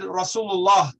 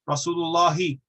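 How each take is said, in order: First: It ends on 'lah' with no final vowel. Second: It ends with an added short 'i' vowel. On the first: "The last haraka wasn't pronounced" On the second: "we would certainly have a kasra on the end of Allah"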